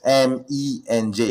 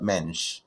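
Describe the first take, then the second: First: M E N J in four separate letters; M E N J named letter by letter, unhurried; spelled-out initials. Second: Menj as a single syllable; initials as a word. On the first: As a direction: spell it slowly, em, ee, en, jay. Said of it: "not supposed to ... to vocalize my initials". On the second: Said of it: "it's not Menj". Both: Shown as a demonstration.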